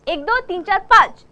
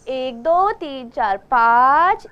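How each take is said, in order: First: It is said lively and with lots of energy. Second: It is said flat and sleepy, without energy.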